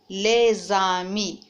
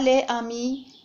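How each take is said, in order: First: A z sound links the two words. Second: The final s is silent, with no link. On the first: The speaker calls it right. "mais on dit" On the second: The speaker calls it wrong. "on ne dit pas"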